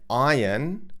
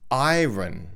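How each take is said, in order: First: It is said with an English accent. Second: It is said with a German accent. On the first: "a word like iron" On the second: "A German speaker might pronounce"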